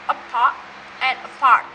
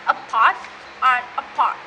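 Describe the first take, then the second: No difference in how they are said.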